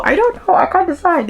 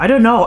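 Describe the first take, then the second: First: Much higher, rising, squeaky I don't know; squealed indecision. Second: Loud, frustrated I don't know; exasperated indecision. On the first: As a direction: let it climb into a helpless squeal. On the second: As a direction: blurt it out, torn and fed up. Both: Real, not acted. Torn over rating the book.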